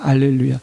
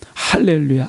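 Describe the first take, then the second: First: The word begins without any h sound. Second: The word begins with an audible h sound. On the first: "H 묵음인 경우에는 알렐루야로" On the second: "H를 붙인 경우에는 그것을 소리내는 경우는 할렐루야로"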